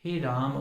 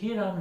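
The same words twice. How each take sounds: First: A short a vowel is sounded after m. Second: The word ends on m with no vowel. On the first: The speaker calls it right. "म में तो अकार है, इस अकार का उच्चारण तो हमें करना ही होगा" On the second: The speaker calls it wrong. "हे राम नहीं है"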